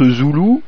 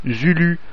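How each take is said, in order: First: « Zoulou » dit avec le son ou, « zoulou »; bonne prononciation. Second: « Zulu » dit avec un u français, comme « zyly »; prononcé à l'anglaise. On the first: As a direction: prononcer « Zoulou » avec deux ou bien nets. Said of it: "se prononce Zoulou". (« Zoulou » prononcé avec le son ou) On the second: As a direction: lire « Zulu » tel qu'il s'écrit, u fermé français. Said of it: "ça s'écrit Z U L U". (« Zulu » prononcé comme écrit, avec des u français) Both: Shown as a demonstration.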